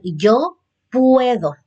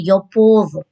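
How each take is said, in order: First: "puedo" said with a clear ue diphthong; "yo puedo" modelled with ue; correct form. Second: "puedo" said as "podo" with a plain o, as a mistake; "yo puedo" mispronounced as "yo podo" on purpose; wrong form. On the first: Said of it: "vendría a ser". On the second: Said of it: "No dice". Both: Shown as a demonstration.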